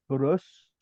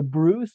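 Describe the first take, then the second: First: Bruce with a short, rounded German vowel; Germanized name. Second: Said in the usual way. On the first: Shown as a demonstration. Showing the German form of the name, Germanized Bruce.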